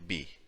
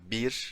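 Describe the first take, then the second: First: The word ends without the r sound. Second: The word ends with a clear r sound. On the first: "I say bi" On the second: "Instead of saying bir"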